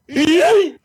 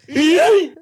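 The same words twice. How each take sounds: Both takes have the same delivery.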